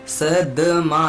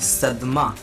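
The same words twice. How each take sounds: First: The d carries a full vowel before m. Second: The d is very short, joined to m. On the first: The speaker calls it wrong. "सदमा नहीं" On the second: The speaker calls it right. "द भी हम बहुत थोड़ी देर के लिए कह रहे हैं और म को साथ में कह रहे हैं"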